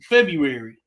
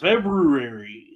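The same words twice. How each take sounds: First: The first r is left out. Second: The first r is clearly pronounced. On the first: "the brothers would pronounce it February" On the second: "F E B R U A R Y"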